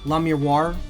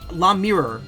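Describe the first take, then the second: First: The name ends with a 'wahr' sound. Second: The name ends like the English word mirror. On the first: "Because, like, it's O I" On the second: "that's how I've said it"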